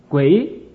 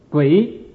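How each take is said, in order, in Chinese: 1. 元音是 'ui' 音。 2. 元音是 'ui' 音。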